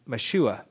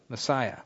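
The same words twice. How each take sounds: First: "Meshua" said as meh-SHOO-ah, stress on the middle syllable; Hebrew pronunciation. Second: Said in the usual way. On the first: Shown as a demonstration. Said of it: "The Hebrew there is". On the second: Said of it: "The Hebrew there is Meshua".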